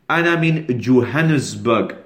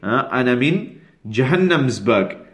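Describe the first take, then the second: First: The city name begins with a 'Jo' sound. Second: The city name begins with a 'Ja' sound. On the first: "So they don't say Johannesburg" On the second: "as some of our Somali brothers say"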